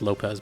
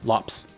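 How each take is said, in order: First: The name is said with two syllables. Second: The name is said with one syllable. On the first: The speaker calls it wrong. "I've been saying their name wrong" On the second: The speaker calls it right. "it's pronounced like Lops"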